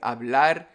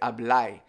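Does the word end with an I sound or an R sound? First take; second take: R sound; I sound. First: The word ends with an R sound. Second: The word ends with an I sound. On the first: "instead of saying hablar" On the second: "they speak with the I. ... they'll say hablai"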